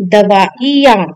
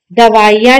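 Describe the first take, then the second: First: दवाइयाँ split as "davaa-i-yaan"; correct i vowel. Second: दवाइयाँ run together as "davaiyaan"; wrong i vowel. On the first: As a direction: give the i in दवाइयाँ its own beat. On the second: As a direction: glide through वाइ in दवाइयाँ. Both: Shown as a demonstration. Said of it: "छोटी ई की मात्रा".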